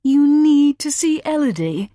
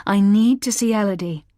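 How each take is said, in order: First: High, loud scornful echo; contemptuous mockery. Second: Said in the usual way. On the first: A narrator's reading. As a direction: throw her words back with contempt. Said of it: "a look of contempt". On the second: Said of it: "Ben's face contorted into contempt".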